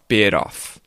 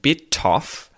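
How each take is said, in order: First: The T is a quick flap like D. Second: The T is a clear, crisp T sound. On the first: "That's the T flap, where we make the T into a D sound" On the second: "instead of bite off and bit off"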